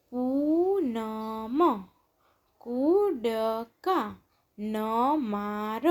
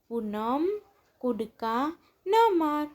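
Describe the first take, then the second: First: પૂનમ, કૂદકા ન માર very slow, syllables stretched; drawn-out પૂનમ, કૂદકા ન માર, syllables separated. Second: Said in the usual way. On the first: Shown as a demonstration. Syllable-by-syllable reading, then blended words.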